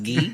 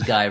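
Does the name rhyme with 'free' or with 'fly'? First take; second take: free; fly. First: The name rhymes with 'free', like 'ghee'. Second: The name rhymes with 'fly', like English 'guy'. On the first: "it's pronounced Guy, like a karate gi" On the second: "his name is Guy"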